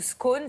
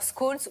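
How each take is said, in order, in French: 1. Le S final ne se prononce pas. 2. Le S final se prononce. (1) "ou pas" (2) "si on prononce le S"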